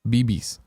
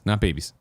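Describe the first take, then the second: First: It is pronounced as two letters, B B. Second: It is pronounced as the word babies. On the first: The speaker calls it right. "It's B Bs" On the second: The speaker calls it wrong.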